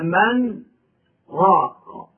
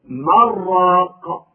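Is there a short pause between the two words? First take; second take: yes; no. First: There is a short pause after min. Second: The two words run together without pause.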